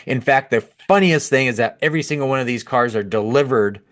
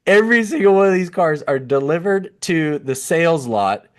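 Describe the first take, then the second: First: Said in the usual way. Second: Higher, fighting a laugh on every single; restrained laughter. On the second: Real, not acted. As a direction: say it again, barely holding back laughter. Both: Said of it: "can't say this with a straight face".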